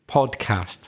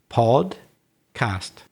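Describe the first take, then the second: First: It is said smoothly as one word without pause. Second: It is said slowly with a pause between syllables. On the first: "And then put them together" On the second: "split it up, if you like. Say it slow first"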